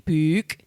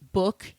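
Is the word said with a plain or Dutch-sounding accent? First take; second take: Dutch; plain. First: It is said with a long Dutch-sounding O. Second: It is said with a plain American accent.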